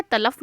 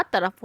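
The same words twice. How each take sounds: First: तलफ said with l instead of r; तलफ with an l sound; mispronounced तलफ, l in the middle; wrong pronunciation. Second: तरफ said with a clear r; तरफ, rolled r in the middle; correct pronunciation. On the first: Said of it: "तलफ नहीं होता". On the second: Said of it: "तरफ होता". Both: Shown as a demonstration.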